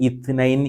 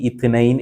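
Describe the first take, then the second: Both takes have the same delivery.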